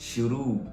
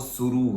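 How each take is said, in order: First: The word begins with an sh sound. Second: The word begins with an s sound. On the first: The speaker calls it right. "तो ये है श" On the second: The speaker calls it wrong. "एक होता है स स सांप वाला, वो शुरू होता है, वो गलत है"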